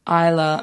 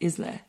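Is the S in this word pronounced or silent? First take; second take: silent; pronounced. First: The S in the word is silent. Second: The S in the word is pronounced. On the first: The speaker calls it wrong. "I always butcher this pronunciation because I thought it was Isla Mujeres" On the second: The speaker calls it right. "someone told me it's actually pronounced Isla"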